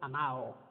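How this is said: The d between the vowels is dropped. "en lugar de amado, se dice amao"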